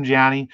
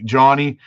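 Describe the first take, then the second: First: Johnny said as "Janny", with a flat a as in "cat"; misspoken name. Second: Johnny with an open "ah", as in "John"; corrected name. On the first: Streamer thanking a viewer in the ice castle, name misspoken as "Janny". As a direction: say Johnny with the vowel of "Jan". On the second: Streamer fixing a viewer's name, Johnny said clearly as "JAH-nee". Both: Real, not acted. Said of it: "Jo-, Johnny".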